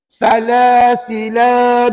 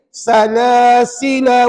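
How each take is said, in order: First: The final vowel is held long, two beats. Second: The final vowel is short, one beat. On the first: The speaker calls it wrong. "jangan baca begini. Salasila, dua harakat tak boleh" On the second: The speaker calls it right. "Dia kena gini"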